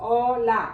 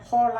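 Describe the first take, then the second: First: The word starts with a vowel, no h sound. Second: The word starts with an audible h sound. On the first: The speaker calls it right. "എച്ച് എപ്പോഴും സൈലൻ്റ് ആണ്" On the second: The speaker calls it wrong. "ഹോള എന്ന് പറയില്ല"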